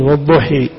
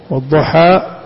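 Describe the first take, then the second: First: The final vowel is fronted toward 'e'. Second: The final vowel is a plain open 'a'.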